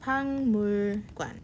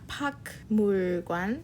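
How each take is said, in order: First: The first syllable ends in an ng sound. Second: The first syllable ends in a k sound. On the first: The speaker calls it right. "It sounds like this. the gyuk will turn into a unji sound" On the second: The speaker calls it wrong.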